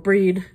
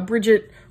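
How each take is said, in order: First: The name is said the fancy, traditional way. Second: The name is said the plain, everyday way.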